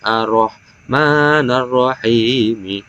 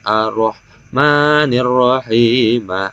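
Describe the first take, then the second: First: The first word ends with an a vowel. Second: The first word ends with an i vowel. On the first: The first word is in the accusative case. "mansubul awwali" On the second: The first word is in the genitive case. "majrurul awwali"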